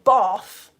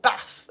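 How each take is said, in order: First: The word is said in a southern accent. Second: The word is said in a northern accent. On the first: This is how people elsewhere say it. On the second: This is how local northerners say it.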